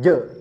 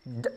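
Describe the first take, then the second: First: The j sound is followed by an e vowel. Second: The j sound stops with no vowel after it. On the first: The speaker calls it wrong. "bukan je" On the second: The speaker calls it right. "jangan disengaja ditambah vokal e"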